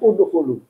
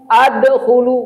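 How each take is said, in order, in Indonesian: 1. Vokal pertama adalah bunyi u. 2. Vokal pertama bukan bunyi u.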